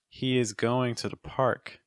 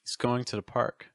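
First: The words 'he is' are said separately. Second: The words 'he is' are joined as 'he's'. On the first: "say it with the verb to be in its full form" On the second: "say it contracted"

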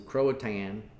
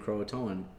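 First: The name is said with two syllables. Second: The name is said with three syllables. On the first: The speaker calls it wrong. "a hillbilly way of saying" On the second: The speaker calls it right. "make the effort to say it right"

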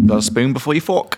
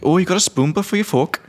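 First: It is said in the speaker's usual accent. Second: It is said in an Irish accent.

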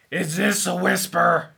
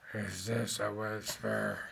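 First: It is said fairly loudly, not whispered. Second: It is said very quietly, nearly whispered.

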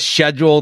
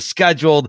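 First: It starts with a British 'sh' sound. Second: It starts with an American 'sk' sound.

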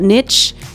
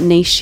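First: It is said the American way. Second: It is said the Australian way.

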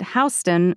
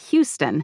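First: Pronounced differently from the Texas city name. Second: Pronounced the same as the Texas city name. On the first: It names the street in New York City. The speaker calls it right. "I need to know to say it Houston" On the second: It names the city in Texas. The speaker calls it wrong. "not Houston, even though it's spelled the same as Houston, Texas"

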